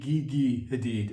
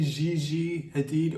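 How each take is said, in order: First: Gigi begins with a hard G sound. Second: Gigi begins with a soft J sound. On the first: "or should it be" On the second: "is it really"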